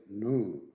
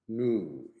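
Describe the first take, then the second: First: It is said with an American accent. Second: It is said with an American accent.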